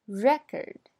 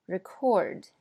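First: Record with REC louder, rising; noun stress. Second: Record with ri- weak, stress on CORD; verb stress. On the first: Teacher models the noun, stress on REC. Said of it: "前面是名词". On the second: Teacher models the verb, stress on CORD. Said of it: "后边是动词". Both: Shown as a demonstration.

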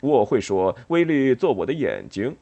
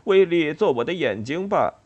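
First: Louder, decided "威力做我的眼睛"; firm declaration. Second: Higher-pitched "威力做我的眼睛吧" as a question; lilting, asking "威力做我的眼睛吧"; tentative request. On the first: A narrator's reading. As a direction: state "威力做我的眼睛" firmly and emphatically. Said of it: "鼹鼠坚定地说". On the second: Acted. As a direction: offer "威力做我的眼睛吧" as a gentle guess. Quoted tentatively within a question.

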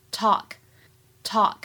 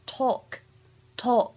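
First: "talk" with an open American vowel; "talk" as in American English, vowel like "tahk"; American pronunciation. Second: "talk" with a rounded British vowel; "talk" as in British English, vowel like "tawk"; British pronunciation. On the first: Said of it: "在美式发音当中呢". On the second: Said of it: "在英式发音当中呢". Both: Shown as a demonstration.

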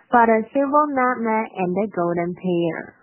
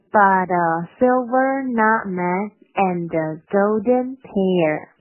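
First: Line read through in a connected flow; quicker demo. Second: Slow, word-by-word model reading, projected; deliberate, drawn-out teaching line; slow demo. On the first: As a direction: pick up the pace and link the words. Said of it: "我同样是先快再慢这块". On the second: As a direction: stretch out each word for learners. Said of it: "先快再慢". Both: Shown as a demonstration.

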